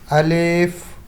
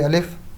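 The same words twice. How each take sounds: First: The first vowel is drawn out long. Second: The first vowel is said short. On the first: "with this tone ... we will read it as alif" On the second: "generally we can say alif"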